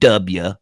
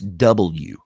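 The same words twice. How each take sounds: First: The letter name is said in a rural way. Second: The letter name is said in a standard way. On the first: The speaker sounds like a hick. The speaker calls it wrong. "not W" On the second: The speaker sounds polished enough for radio. The speaker calls it right. "It's W"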